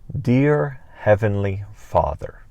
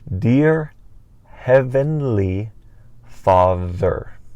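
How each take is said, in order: First: The phrase is said at a normal pace. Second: The phrase is said more slowly.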